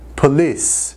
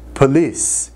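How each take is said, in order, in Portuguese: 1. A ênfase está na segunda sílaba. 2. A ênfase está na segunda sílaba.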